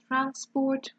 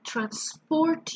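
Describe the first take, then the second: First: The stress is on the first syllable. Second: The stress is on the second syllable. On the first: It is used as a noun. "the noun public transport or research shows is stressed on the first syllable" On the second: It is used as a verb. "The verb is always stressed in the second syllable"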